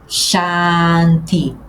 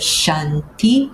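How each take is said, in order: First: The first vowel is open and long. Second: The first vowel is closed and short. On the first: The speaker calls it right. "como se eu tivesse um acento agudo no A, abrindo bem o som" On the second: The speaker calls it wrong. "fazendo um A, quase como se eu tivesse um aqui um acento circunflexo"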